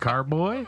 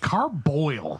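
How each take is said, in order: First: The word ends in a plain oy sound. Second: The word ends with an added L sound. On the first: The usual form of the word. The speaker calls it right. "You mean carboy?" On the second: A customer's mistaken form of the word. The speaker calls it wrong. "somebody comes in looking for a carboil"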